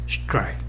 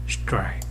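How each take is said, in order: The two takes are said the same way.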